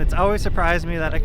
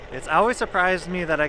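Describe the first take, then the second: First: The voice is masked by heavy wind noise. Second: The voice is clear with little wind noise. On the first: The speaker calls it wrong. "it failed in the wind test when I was cruising on my one wheel" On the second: The speaker calls it right. "here is an audio test cruising on my one wheel with the Rode Video Micro"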